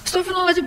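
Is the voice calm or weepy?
weepy. It is said in a weepy, crying voice. The person overreacts to a tiny wound. The speaker calls it wrong. "Bukan, astagfirullahaladzim, gitu aja nangis kan ya"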